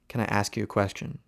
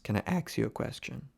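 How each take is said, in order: First: The word ask is said with sk. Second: The word ask is said as ax. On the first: "if I want to say" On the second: "Ask becomes ax"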